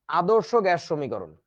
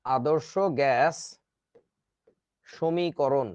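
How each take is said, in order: First: Deliberate, slow naming of the term. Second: Very slow, spaced out for note-taking; slow dictation. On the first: Teacher introducing the equation's name, slow. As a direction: say the term slowly. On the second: Teacher dictating the term to students, very slow. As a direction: drag each word so they can write. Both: Shown as a demonstration. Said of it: "এইটাকেই বলে হচ্ছে".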